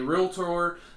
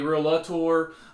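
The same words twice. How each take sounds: First: It is said with two syllables. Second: It is said with an extra middle syllable. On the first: The speaker calls it right. "that is the proper uh, way to pronounce it" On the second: The speaker calls it wrong. "with an A in there"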